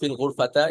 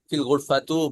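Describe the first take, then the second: First: The last word ends with an a vowel. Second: The last word ends with an u vowel. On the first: "এভাবে বলা যাবে না" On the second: "এভাবে বলা যাবে না"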